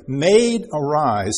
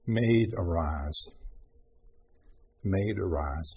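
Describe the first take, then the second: First: Raised, louder call of Maid, arise; a bright wake-up call; loud waking call. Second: Low, slow and soft Maid, arise; quiet, tender, unhurried; soft tender call. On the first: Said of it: "that's what we have here". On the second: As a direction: gently wake a sleeping child. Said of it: "and he said". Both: Shown as a demonstration.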